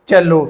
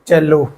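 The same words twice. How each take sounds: First: The word begins with a ch sound. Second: The same.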